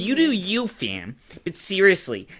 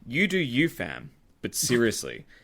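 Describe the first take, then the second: First: It is said in a put-on imitating voice. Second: It is read in the speaker's normal voice.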